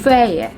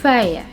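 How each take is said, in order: No difference in how they are said.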